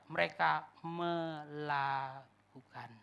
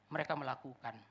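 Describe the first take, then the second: First: "melakukan" stretched syllable by syllable; slow, drawn-out "melakukan"; deliberate emphasis. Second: Said in the usual way. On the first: Real, not acted. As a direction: say "melakukan" very slowly, each syllable held.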